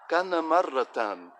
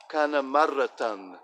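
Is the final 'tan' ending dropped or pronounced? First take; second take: pronounced; pronounced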